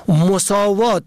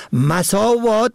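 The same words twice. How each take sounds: First: مساوات said "mosavat", o after m; short o first. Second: مساوات said "masavat", a after m; short a first. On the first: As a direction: say مساوات as "mo-saa-VAAT". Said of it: "به ضم اول". (مساوات با ضم اول، «مُساوات») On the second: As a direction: say مساوات as "ma-saa-VAAT". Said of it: "به فتح اول". (مساوات با فتح اول، «مَساوات») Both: Shown as a demonstration.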